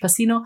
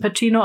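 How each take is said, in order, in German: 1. Der Name wird amerikanisch ausgesprochen. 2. Der Name wird italienisch ausgesprochen. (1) "auf Amerikanisch Pacino" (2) "auf Italienisch spricht man es eben Pacino"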